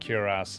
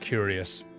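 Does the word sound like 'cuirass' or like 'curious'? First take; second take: cuirass; curious. First: The word is said like 'kwee-rass'. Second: The word is said like 'curious'. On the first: The speaker calls it right. "That's exactly how it's spelled" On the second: The speaker calls it wrong. "I've been pronouncing that word wrong my entire life"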